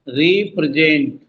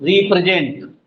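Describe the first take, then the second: First: represent slow, री held apart; low, measured represent; broken into syllables. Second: Said in the usual way. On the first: Shown as a demonstration. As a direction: draw out represent as री-प्रे-जेंट. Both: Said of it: "किस पे जोर पड़ रहा है".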